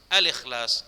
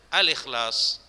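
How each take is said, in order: Both takes have the same delivery.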